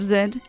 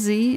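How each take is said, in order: First: The letter is said the non-American way. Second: The letter is said the American way. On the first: The speaker calls it right. "instead of Z" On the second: The speaker calls it wrong. "America is the only country that pronounces Z or Z as Z"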